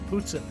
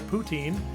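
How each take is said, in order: First: The word is said the Canadian way. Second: The word is said the non-Canadian way. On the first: The speaker calls it right. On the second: The speaker calls it wrong.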